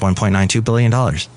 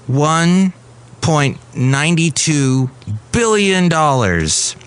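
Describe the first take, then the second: First: The number is said quickly without any pause. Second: The number is said slowly with strong emphasis. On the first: The amount is just another number. The speaker calls it wrong. "roll it off their tongue really quickly and they don't pause" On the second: The amount is huge and worth noticing. The speaker calls it right. "when someone puts emphasis on it"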